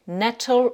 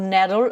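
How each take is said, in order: First: "nettle" with a clear, crisp t; British-style pronunciation. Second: "nettle" with an American tapped t; American-style "nettle", the t softened to a d; American accent. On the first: Teacher models English for French learners, British "nettle" with sounded t. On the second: Teacher models the word for French learners, American accent. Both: Shown as a demonstration. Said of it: "avec l'accent américain".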